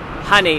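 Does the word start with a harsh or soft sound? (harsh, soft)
soft. The word starts with a soft, ordinary sound. "instead of um"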